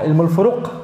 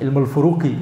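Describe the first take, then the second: First: The last word ends on the q consonant. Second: The last word ends with an i vowel. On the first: "kalau di wakaf jadi qaf" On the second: "ya nggak mati sebenarnya"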